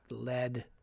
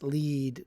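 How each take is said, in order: First: The word rhymes with bed. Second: The word rhymes with seed. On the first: It means the toxic heavy metal. The speaker calls it wrong. "not lead" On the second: It means the main or leading one. The speaker calls it right. "No, it's lead"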